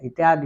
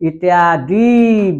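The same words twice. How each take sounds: First: The final vowel is short and quick. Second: The final vowel is held long. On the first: The speaker calls it right. "इत्यादि होता है" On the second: The speaker calls it wrong. "इत्यादि बोलेंगे तो दीर्घ होगा, गलत हो जाएगा"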